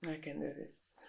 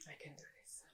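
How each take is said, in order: First: Quiet pep talk. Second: Whispered pep talk. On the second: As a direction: whisper "I can do this" to yourself. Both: Acted.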